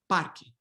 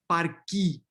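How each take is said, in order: First: The final vowel is short and reduced. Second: The final vowel is a full, clear E. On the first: "it's not necessarily this full-blown E" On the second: "this full-blown E"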